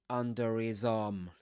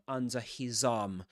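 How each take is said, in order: First: The h is dropped; the r links on. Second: The h in 'his' is clearly pronounced. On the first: "if you drop the h consonant... So you get a link" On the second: "usually you will say under under under his arm"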